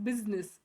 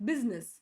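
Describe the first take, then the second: The two takes are said the same way.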